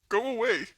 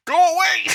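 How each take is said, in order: First: Loud and firm, still holding back; firm go away. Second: Much louder and higher yell; yelling go away. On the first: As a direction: push them out, not yet yelling. Sibling still in room. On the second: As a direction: blast the sibling out at full voice. Sibling won't leave. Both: Real, not acted.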